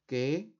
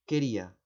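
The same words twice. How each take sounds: First: "Que-ri-a" with a long pause between syllables; teacher's slow syllable split of "Que-ri-a". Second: Said in the usual way. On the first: Shown as a demonstration. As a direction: isolate each syllable of "Que-ri-a". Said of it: "lo voy a segmentar silábicamente". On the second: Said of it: "la otra palabra cuál es".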